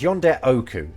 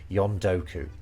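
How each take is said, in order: First: The phrase keeps both words, yonde and oku, separate. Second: The two words merge into one shorter word, yondoku. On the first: "rather than saying yonde oku" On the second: "he's saying yondoku, which is pretty common"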